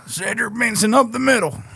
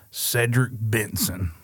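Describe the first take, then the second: First: High-pitched football commentator call; play-by-play announcer. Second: Cedric Benson drawn out slowly; slow, savoured name. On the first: Acted. Fan imitates the commentary on a running back, announcer-style. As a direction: call the run like a sportscaster, pitched up. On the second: Shown as a demonstration. Fan offers an example of a good name, savouring it slowly. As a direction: savour each word of the name, unhurried.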